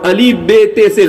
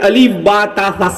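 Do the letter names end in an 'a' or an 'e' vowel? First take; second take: e vowel; a vowel. First: The letter names end in an 'e' vowel. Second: The letter names end in an 'a' vowel. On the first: The speaker calls it wrong. "गलत है" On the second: The speaker calls it right. "सही है"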